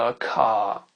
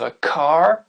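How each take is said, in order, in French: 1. Le R est omis et la voyelle allongée. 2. Le R est nettement prononcé après la voyelle. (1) "un Anglais va dire a car" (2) "Un Américain va dire a car"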